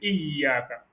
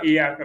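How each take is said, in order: First: The y sound is held and doubled. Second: The y sound is short and single. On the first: The speaker calls it right. "il y a shadda... c'est renforcé" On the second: The speaker calls it wrong. "C'est pas iyaka"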